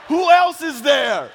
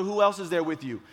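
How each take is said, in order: First: High, slow, hammed-up yell; panicked shout. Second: Said in the usual way. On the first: Storyteller re-enacting frantic question to injured boy, panicked shout. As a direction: demand it urgently at full volume.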